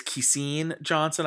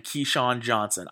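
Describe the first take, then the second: First: "Keyseen" with second syllable said like seen; alternative name pronunciation. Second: "Keyshawn" with second syllable said like Sean; Keyshawn pronunciation. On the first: Host offering a pronunciation heard from others, "Keyseen" ending like seen. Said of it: "I've heard people pronounce that". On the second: Host listing draft picks, unsure of the name, "Keyshawn" ending like Sean. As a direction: say "Keyshawn" ending in a shawn sound. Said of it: "I forget how you pronounce this Keyshawn". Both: Shown as a demonstration.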